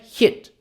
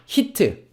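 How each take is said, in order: First: The final t is very faint with no vowel. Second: The final t is followed by an added vowel. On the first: "영어로는요" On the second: "요거 한국에서는 어떻게 읽냐?"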